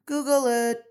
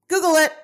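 First: Said in the usual way. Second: "Google" punched up loud and high, falling on "it"; louder second "Google it" with "Google" hit hard; louder, higher "Google it". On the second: Shown as a demonstration. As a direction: bark it out as a triumphant dare.

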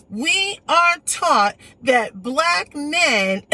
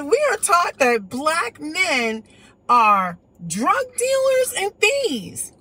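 First: Very slow, each word pressed out hard; slow retold quote. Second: Slow, deliberate mock quoting; slow retold quote. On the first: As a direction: spell out "We are taught" with heavy weight. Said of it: "there was a woman who told me". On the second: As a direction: drag out "drug dealers and thieves" word by word. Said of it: "she said".

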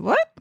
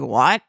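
First: Retold disbelieving question, pitched up; taken aback. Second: Low-pitched imitation of an older man; older gentleman. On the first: Photographer replying to a guest claiming membership, taken aback. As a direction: act out being taken aback. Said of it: "And I said". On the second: Older guest questioning the photographer, imitated in a lowered voice. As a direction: mimic his curt question, pitched down. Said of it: "he looks up at me and he's like".

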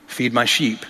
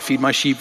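First: Tender Jesus. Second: Said in the usual way. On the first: Acted. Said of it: "Jesus said so tenderly". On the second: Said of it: "what is this all about?".

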